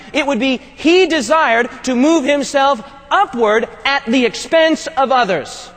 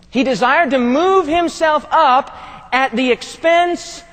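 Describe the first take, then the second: First: Said in the usual way. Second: Slow, each word weighed, leaning on "move" and "expense"; deliberate slow repeat hitting "up" and "expense"; slow emphatic restatement. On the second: Shown as a demonstration. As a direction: say it again slowly so it sinks in. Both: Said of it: "I want to say that again".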